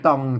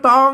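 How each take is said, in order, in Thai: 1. พยางค์นี้ออกเสียงด้วยเสียงต่ำ 2. พยางค์นี้ออกเสียงด้วยเสียงสามัญ (1) "ใส่ไม่เอก" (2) "อันนี้อ่านว่าตองนะ"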